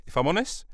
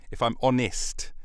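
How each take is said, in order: First: HONEST lifted high as a question; questioning repeat. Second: HONEST falling, as a statement; settled statement. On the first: Podcaster queries his own phrase, questioning. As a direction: turn it into a question, rising on HONEST. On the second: Podcaster confirms his own phrase, settled. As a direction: land HONEST with a falling close. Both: Shown as a demonstration.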